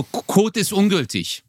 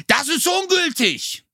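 First: Retold terse annoyance, slow and higher; mildly annoyed mock clerk, drawn out; pissed-off clerk. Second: High, drawn-out imitation of a screaming clerk; retold shriek, slow and high without real volume; mock scream. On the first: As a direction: imitate an irritated post clerk. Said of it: "der ist schon voll angepisst". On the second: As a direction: act out his sudden outburst, pitched way up. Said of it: "schreit er auf einmal so".

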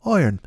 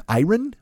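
First: "Iron" as a falling "oi-urn"; English pronunciation. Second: "Iron" raised, in two syllables with a sounded r; British pronunciation. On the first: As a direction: try an English "Iron", settling downward. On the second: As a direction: try "Iron" as "eye-run", questioning. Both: Shown as a demonstration. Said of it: "Would they say Iron in England?".

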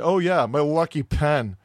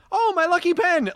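First: Slow, drawn-out imitated brush-off; slowly imitating someone's unimpressed answer; offhand retold reply. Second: Very high, lilting Irish-tinged exclamation; light Irish touch, pitched way up; slight Irish inflection. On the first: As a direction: take your time, at your usual pitch. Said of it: "I don't think I said it that way". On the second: Retold or imitated. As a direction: say it high with a little Irish lilt. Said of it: "You did a little Irish inflection on that".

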